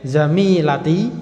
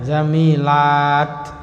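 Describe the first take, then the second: First: The vowel after the 'l' is kept short. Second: The vowel after the 'l' is held long. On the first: It refers to one female friend. "Kalau pendek" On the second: It refers to several female friends. "lanya panjang"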